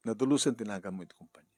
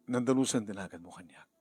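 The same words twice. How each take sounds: First: Louder, faster crying plea; breaking into louder, faster pleading; louder tearful plea. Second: Through tears; holding back sobs; tearful plea, first take. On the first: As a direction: push the plea out through tears. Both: Acted. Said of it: "Are you crying?".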